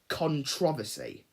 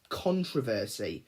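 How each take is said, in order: First: The word is said the British way. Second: The word is said the American way. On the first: "the British term is controversy" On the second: "the American term is controversy"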